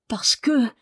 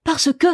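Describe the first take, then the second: First: Higher, suspended words left unfinished; held back, trailing into silence; hesitant. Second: Loud, high, urgent prompt; sharp, lively burst; eager cry. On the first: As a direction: hesitate on the edge of a secret. Marie hesitates before confiding secret. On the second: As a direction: cry it out impatiently. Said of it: "cria-t-il vivement". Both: A narrator's reading.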